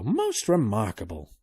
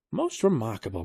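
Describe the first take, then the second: First: "most remarkable" drawn out slower; slower repeat. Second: Said in the usual way. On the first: A narrator's reading. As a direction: savour "most remarkable" slowly. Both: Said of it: "he said".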